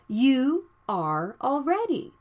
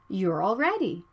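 First: The words "you are" are said in full. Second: The words are contracted to "you're". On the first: The speaker calls it wrong. "Not you are already" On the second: The speaker calls it right.

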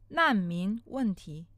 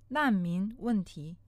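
Both takes have the same delivery.

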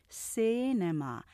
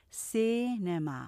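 No difference in how they are said.

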